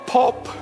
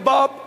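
First: The word begins with a P sound. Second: The word begins with a B sound. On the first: The speaker calls it wrong. "When they come to pronounce the B, they pronounce it P" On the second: The speaker calls it right. "When it came to Bob"

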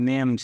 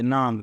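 First: The vowel is an 'ay' sound. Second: The vowel is an open 'ah' sound. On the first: The speaker calls it right. "પરંતુ આ નેમ છે" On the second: The speaker calls it wrong. "ઘણા બધા લોકો આને નામ વાંચે"

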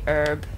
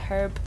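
First: The word begins with a silent h. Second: The word begins with a pronounced h sound. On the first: The speaker calls it wrong. "as Americans say" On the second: The speaker calls it right. "It's got a H"

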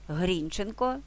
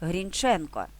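First: The stress is on the first syllable. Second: The stress is on the second syllable.

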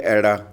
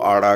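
First: It is said in the Doaba regional way. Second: It is said in the Malwa regional way. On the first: "ਇੱਥੇ ਦੁਆਬੇ ਚਲ ਜਾਓ ਉੱਥੇ ਐੜਾ" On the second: "ਮਾਲਵੇ ਗੂੜ ਚਲ ਜਾਓ ਉਹ ਆੜਾ ਕਹਿੰਦੇ ਆ"

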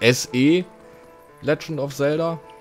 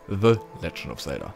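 First: The word 'the' starts with an s sound. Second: The word 'the' starts with a th sound. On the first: The speaker calls it wrong. "Vorher war es ja immer the, ne? Also ein SE Legend of Zelda" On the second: The speaker calls it right. "Jetzt wirklich ein The Legend of Zelda"

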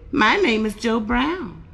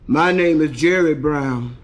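First: It is said in a normal voice. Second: It is said in a heavy, deep voice.

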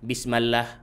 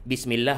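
First: The vowel after bism is a. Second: The vowel after bism is i.

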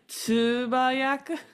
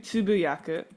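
First: The second syllable is said as 'ba'. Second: The second syllable is said as 'bu'. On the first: The speaker calls it wrong. "so I'm not pronouncing right" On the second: The speaker calls it right. "It's supposed to be tsubuyaku"

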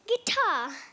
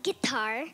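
First: It is said in a British accent. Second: It is said in a plain, non-British accent. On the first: "British accent number one. ... you say guitar" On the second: "Instead of saying guitar"

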